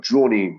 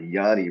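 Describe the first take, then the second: First: The name begins with a J sound. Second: The name begins with a Y sound. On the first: The speaker calls it wrong. "that's not Johnny" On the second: The speaker calls it right. "It's it's like Yanni Broom"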